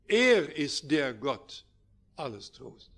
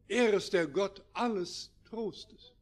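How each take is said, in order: First: The stress is on the word Gott. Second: The stress is on the word alles. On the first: Real comfort comes only from God and nobody else. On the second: There is comfort for every kind of distress.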